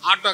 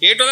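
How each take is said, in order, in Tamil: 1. முதல் உயிரெழுத்து திறந்த 'ah' ஒலிதான். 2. முதல் உயிரெழுத்து 'ay' ஒலிதான். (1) "ஆட்டோ கிடையாது" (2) "ஏட்டோ தான் சரியானது"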